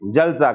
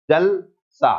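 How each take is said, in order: First: जल सा run together as one word; no pause between words. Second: जल, short pause, then सा as its own word; slight pause between words. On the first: Teacher showing lost juncture, जल सा fused into one word. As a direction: join जल सा with no break at all. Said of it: "अगर संगम खत्म हो गया तो". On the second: Teacher demonstrating juncture, a clear break between जल and सा. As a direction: split जल सा into two separate words. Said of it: "थोड़ा सा रुक गए". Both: Shown as a demonstration.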